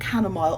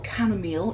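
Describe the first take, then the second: First: It is said with a British pronunciation. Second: It is said with an American pronunciation.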